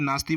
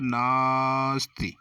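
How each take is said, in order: First: The first vowel is short and quick. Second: The first vowel is held very long. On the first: The speaker calls it wrong. "जल्दी में नास्ति बोल देते हैं" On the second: The speaker calls it right. "शुद्ध उच्चारण ... ना को हम देर तक बोल रहे हैं"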